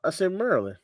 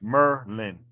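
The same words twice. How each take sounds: First: Maryland said with its R, Y and D; full pronunciation. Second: Maryland said as Merlin, two syllables, no d; local pronunciation. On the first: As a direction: say Maryland in full, three syllables. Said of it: "I can hear the R, the Y, and the D". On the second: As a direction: say Merlin, Mer plus Lynn, no R-Y-D. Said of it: "it's Maryland". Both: Shown as a demonstration.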